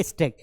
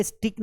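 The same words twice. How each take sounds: First: "स्टैक" with an "ay" vowel, stake; correct pronunciation demo. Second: "स्टिक" with an i vowel; wrong pronunciation demo. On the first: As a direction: say "स्टैक" as stayk, no ee. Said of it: "क्या पढ़ेंगे?". ("स्टैक" में "ए" की आवाज़) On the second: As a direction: say "स्टिक" as stik, not stayk. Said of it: "इसे स्टिक नहीं पढ़ना है". ("स्टिक" में "इ" की आवाज़) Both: Shown as a demonstration.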